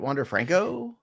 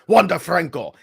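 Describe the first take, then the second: First: The voice rises at the end like a question. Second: The voice falls at the end like a statement. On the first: The speaker sounds unsure of the name. "you put a question mark at the end of it" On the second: The speaker says the name with confidence. "I say it with authority. No question marks in my voice"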